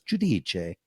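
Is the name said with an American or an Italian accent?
Italian. The name is said with a standard Italian accent. The speaker calls it right.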